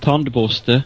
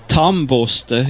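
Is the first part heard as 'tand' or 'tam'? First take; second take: tand; tam. First: The first part sounds like 'tand', keeping the d. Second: The first part sounds like 'tam', dropping the d.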